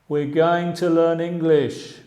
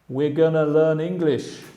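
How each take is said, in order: First: Going to is said as two full words. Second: Going to is reduced to a short gonna.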